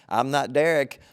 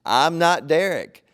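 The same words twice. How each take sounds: First: Said in the usual way. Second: Slow, with stress on not; firm denial. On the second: Retold or imitated. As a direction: lean hard on not in I'm not Derek. Repeats denial, more firmly.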